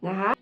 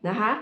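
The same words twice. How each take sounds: The two takes are said the same way.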